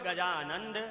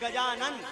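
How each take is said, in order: First: The name ends with an 'nd' sound. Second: The name ends with a plain 'n' sound. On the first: The speaker calls it wrong. "हम लोग जयकार लगाते तो क्या बोलते? बोले गजानंद" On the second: The speaker calls it right. "सही है गजानन"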